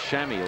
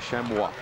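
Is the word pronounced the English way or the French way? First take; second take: English; French. First: The word has an English-style pronunciation. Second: The word has a French-style pronunciation.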